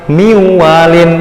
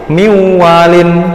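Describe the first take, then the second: No difference in how they are said.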